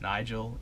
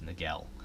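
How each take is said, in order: First: The name is said as 'Nigel'. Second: The name is said as 'Nagel'. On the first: The speaker calls it right. "It's Nigel" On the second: The speaker calls it wrong. "They were pronounced Nagel"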